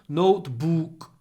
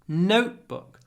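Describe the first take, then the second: First: The stress is on the second syllable. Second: The stress is on the first syllable. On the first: The speaker calls it wrong. "in Russian, the stress is always on the second syllable" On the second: The speaker calls it right. "In English, it's always on the first syllable"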